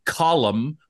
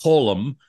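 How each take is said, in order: First: Colum as KAH-lum, open first vowel; two-syllable Colum. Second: Colum as KOH-lum, rounded first vowel; long-O Colum. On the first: Host offers a pronunciation option, Colum said KAH-lum. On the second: Host offers another pronunciation option, Colum said KOH-lum. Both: Shown as a demonstration. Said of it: "How do you pronounce his first name".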